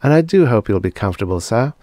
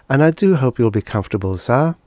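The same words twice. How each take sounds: First: Soft low voice. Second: Fast, repeating like a machine; stuck robot voice. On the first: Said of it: "in a soft, low voice". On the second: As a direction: loop the line like a jammed robot. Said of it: "she repeated". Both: Acted.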